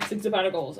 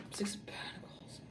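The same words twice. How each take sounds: First: Said in the usual way. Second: Hushed whisper of the card's name. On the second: Real, not acted. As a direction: drop right down into a voiceless whisper. Same card repeated after "oh dear.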